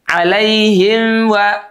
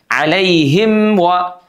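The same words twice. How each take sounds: First: The m is weak, blending into the rounded wa. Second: The m is fully closed before the wa. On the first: The speaker calls it wrong. "Maka jadi bunyinya begini nih, perhatikan mulut saya" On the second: The speaker calls it right. "seharusnya mimnya rapat"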